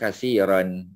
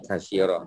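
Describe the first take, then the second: First: The word ends with an added n sound. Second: The word ends on a plain vowel sound. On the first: The word carries its full ending. "Kalau kita bagi bunyi kasiran" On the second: The word stands at a pause. "Kasira tu kalau kita wakaf lah"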